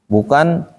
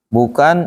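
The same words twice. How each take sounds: No difference in how they are said.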